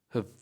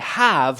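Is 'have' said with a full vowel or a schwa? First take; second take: schwa; full vowel. First: The vowel is reduced to a schwa. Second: The vowel is full and strong. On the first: The speaker calls it right. "we say have, ... schwa" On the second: The speaker calls it wrong. "we don't say have"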